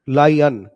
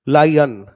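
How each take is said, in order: No difference in how they are said.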